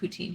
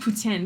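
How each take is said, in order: First: It is said with an English pronunciation. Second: It is said with a Quebec French pronunciation. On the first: This is how people outside Quebec say it. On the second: This is how people from Quebec say it.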